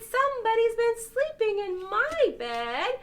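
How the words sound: It is said in the itty bitty bear's voice.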